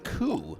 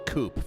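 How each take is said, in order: First: The word ends in a vowel, no p sound. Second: The word ends with a clear p sound. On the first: "in Versmerican English, we believe it's pronounced coup" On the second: "chickens live in a coop, so maybe we will could just call it a coop"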